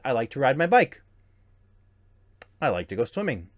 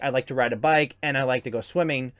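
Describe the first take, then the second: First: There is a clear pause between the clauses. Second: It runs on without a pause between clauses.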